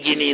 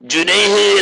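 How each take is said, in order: First: The word begins with a g sound. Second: The word begins with a j sound. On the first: This is the colloquial dialect pronunciation. "ഇവര് ഗിനി ഗിനി എന്ന് പറയുന്നത്" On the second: This is the standard pronunciation. "ജുനൈഹ് എന്ന് പറയുന്നതിനപ്പോ"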